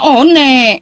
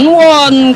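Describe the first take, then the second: First: Each letter is sounded with Indonesian spelling values. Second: It is pronounced as English 'wun'. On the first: The word is read as in Indonesian. The speaker calls it right. "Indonesia seharusnya bacanya one" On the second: The word is read as in its original English. The speaker calls it wrong. "Bukan won. ... Dari bahasa Inggris"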